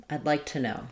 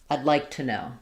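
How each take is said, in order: Both takes have the same delivery.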